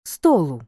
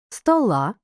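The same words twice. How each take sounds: First: "столу" stressed on the О; "столу" with stressed О and unstressed ending; stress on first syllable. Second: "Стола" stressed on the final А; "Стола" with unstressed О and stressed ending; stress on last syllable. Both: Shown as a demonstration. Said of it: "все залежить від наголосу".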